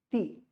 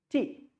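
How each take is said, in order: First: T with the tongue against the teeth; dental T. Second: T with the tongue on the alveolar ridge. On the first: Teacher asking what sound comes out, dental T. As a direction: say T softened, tongue put on the teeth. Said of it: "if you put your tongue at your teeth". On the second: Teacher showing where the tongue touches, alveolar T. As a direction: say T, tongue tapping the ridge where the teeth start. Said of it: "If it touches the alveolar ridge". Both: Shown as a demonstration.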